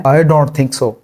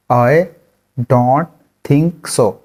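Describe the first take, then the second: First: Said in the usual way. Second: Broken into single words with pauses. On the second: Shown as a demonstration. Teacher splits the phrase into words for the class. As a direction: pause after every word. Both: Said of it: "इसको English में कहते हैं".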